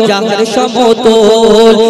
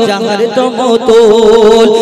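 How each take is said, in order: No difference in how they are said.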